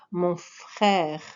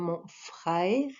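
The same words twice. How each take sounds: First: A plain vowel, with no diphthong. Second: The vowel glides as a diphthong.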